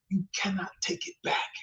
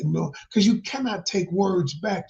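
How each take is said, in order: First: Hushed whisper for weight. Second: Said in the usual way. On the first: Real, not acted. Warning the audience that words can't be taken back, whispered.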